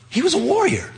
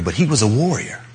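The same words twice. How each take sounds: First: "warrior" lifted very high and falling away; sung-out high "warrior" ending the line; stress on warrior. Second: Weight on "he", the rest level; "he" pressed, "warrior" left plain; stress on he. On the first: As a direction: ring out "warrior" high as the point of the sentence. Contrast: warrior, not our idea. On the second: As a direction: lean on "he" to insist it is him. Restated with new emphasis. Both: Shown as a demonstration.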